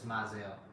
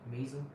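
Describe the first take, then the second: First: The name is said like 'Mizell'. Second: The name is said like 'Measle'. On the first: The speaker calls it right. "It's Mizell" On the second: The speaker calls it wrong. "That's not how you pronounce it though"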